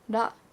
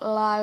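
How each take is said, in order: First: The consonant is a quick tap, between r and d. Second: The consonant is an English-style l sound. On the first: The speaker calls it right. "the front of the roof of your mouth, that's where your tongue touches" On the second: The speaker calls it wrong. "it's not la"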